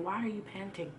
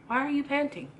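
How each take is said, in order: First: Softer, a quiet loving question; God asking tenderly, almost under his breath; gentle God voice. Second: Higher, a raised urgent plea; God calling out to a tired child; pleading God voice. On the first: Preacher voicing God softly to the congregation, quiet and gentle. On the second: Preacher voicing God calling to the weary church, raised and pleading. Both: Retold or imitated.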